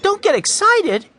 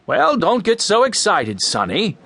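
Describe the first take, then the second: First: Very high, louder angry yell; indignant yell. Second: Put-on man brushing off an upset boy; higher start dropping on the last word; dismissive man. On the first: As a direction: yell the words back in outrage. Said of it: "yelled Mike". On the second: Man soothing an angry boy. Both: A narrator's reading.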